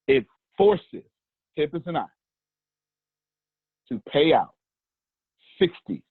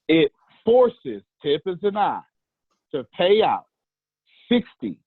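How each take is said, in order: First: It is said in a plain, calm speaking voice. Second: It is said in a fervent, preacher-like voice.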